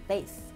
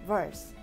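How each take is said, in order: First: It is said in an American pronunciation. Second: It is said in a British pronunciation.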